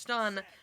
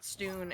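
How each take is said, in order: First: The vowel is a short 'uh' sound. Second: The vowel is a long 'oo' sound. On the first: The speaker calls it right. "is pronounced stun" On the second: The speaker calls it wrong. "not stoon"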